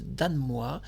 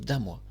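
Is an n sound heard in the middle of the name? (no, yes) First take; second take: yes; no. First: An n sound is heard before the m. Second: No n sound is heard before the m. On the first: "moi je prononce Danemois" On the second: "on prononce Damois"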